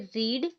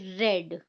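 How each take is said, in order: First: The vowel is long, like in seed. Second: The vowel is short, like in bed. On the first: Present tense. "यहाँ पे हम इसे पढ़ेंगे रीड" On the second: Past tense. "यहाँ पे हम इसे पढ़ेंगे रेड"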